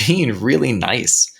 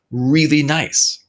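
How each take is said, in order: First: Said in the usual way. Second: "really" drawn out slow and high; stress on really. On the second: Real, not acted. Man remembering Goldblum's kindness, heavy stress on "really". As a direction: stretch "really" with a high, emphatic rise. Repeats it for emphasis.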